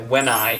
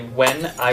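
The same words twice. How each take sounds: First: The two words run together as one. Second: The two words are said separately. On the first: The speaker calls it right. "as if it was one word" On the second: The speaker calls it wrong. "we don't say when I was young"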